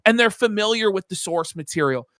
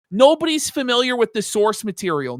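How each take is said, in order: First: Said in the usual way. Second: Nobody's hit higher and harder; Nobody's pushed up to flip the line; stress on Nobody's. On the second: Real, not acted. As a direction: punch the word Nobody's in a raised voice.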